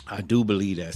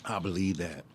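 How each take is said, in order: First: "do" punched louder and falling; stress on do. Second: Said in the usual way. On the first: Real, not acted. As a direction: lean hard on "do". Affirming belief twice.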